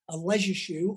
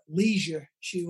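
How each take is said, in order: First: It is said in a British accent. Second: It is said in an American accent.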